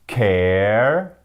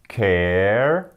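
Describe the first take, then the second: No difference in how they are said.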